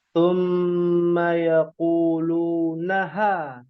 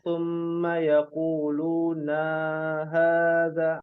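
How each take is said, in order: First: The vowel after 'n' is short. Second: The vowel after 'n' is long. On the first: The speaker calls it right. "dipangkas panjangnya menjadi satu harokat, tidak dibaca panjang" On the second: The speaker calls it wrong. "tidak boleh dibacanya"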